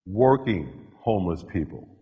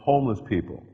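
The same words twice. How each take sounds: First: Working punched, homeless lighter; stress on working. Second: Homeless leaned on, then working added; stress on homeless. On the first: Speaker narrowing homeless to the working kind. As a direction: hit the word working. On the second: Speaker stressing which homeless people. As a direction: lean on the word homeless. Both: Shown as a demonstration.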